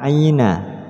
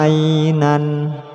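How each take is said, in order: First: The word ends on an open a vowel. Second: The word ends with an n sound. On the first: The speaker calls it right. "ketika waqaf maka dibaca fathah" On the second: The speaker calls it wrong. "tidak boleh dibaca"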